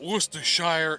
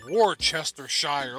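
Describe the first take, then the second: First: The word is said in its short, common form. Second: Every syllable is sounded out as it is spelled. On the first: This is how most people say it. "It's not Worcestershire" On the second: This follows the written form of the word. "it's pronounced Worcestershire. Look how it's spelled"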